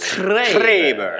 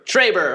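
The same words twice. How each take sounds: First: The r sound is rolled with the tongue. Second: The r sound is plain, not rolled.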